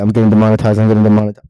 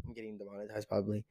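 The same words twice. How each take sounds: First: Very loud, repeated blurt; loud, low-pitched chant; demonetized alarm. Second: Quick, soft aside; hushed, hurried admission; offhand afterthought. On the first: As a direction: blast it out right on the mic. Panicked joke about losing money. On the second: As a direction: drop the volume and rattle it off. Drops back after loud repeats. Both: Real, not acted.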